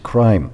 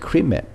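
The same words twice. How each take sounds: First: The vowel is a long sound. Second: The vowel is a short sound. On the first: The speaker calls it right. "It's a different sound. It's crime" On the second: The speaker calls it wrong. "which I said is not correct"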